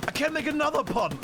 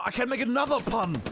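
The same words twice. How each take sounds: First: Pitched up, punning again; higher repeat. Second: Said in the usual way. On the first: Shown as a demonstration. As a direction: lift the voice, teasing the pun. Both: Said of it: "Oh, it's awful".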